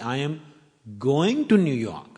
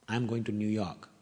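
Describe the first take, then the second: First: The word "going" is stressed. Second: No word is given special emphasis. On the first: The speaker is heading there, not coming back. "I'm not coming from New York" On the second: It is a simple statement. "It's a plain sentence"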